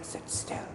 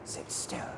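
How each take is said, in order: First: It is said in a whisper. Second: The same.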